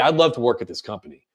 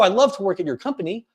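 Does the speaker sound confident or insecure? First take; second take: confident; insecure. First: It sounds confident, falling at the end. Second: It sounds insecure, rising at the end.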